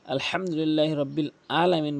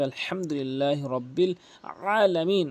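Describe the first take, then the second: First: আলহামদুলিল্লাহ রব্বিল আলামিন with a plain a sound for আলামিন; plain Bengali a in আলামিন; wrong recitation. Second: আলহামদুলিল্লাহ রব্বিল আলামিন with আলামিন started from a squeezed throat ain; throaty pressed ain in আলামিন; correct recitation. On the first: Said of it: "তাহলে হবে না". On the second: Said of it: "আইনটি চাপ দিয়ে ভর দিয়ে". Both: Shown as a demonstration.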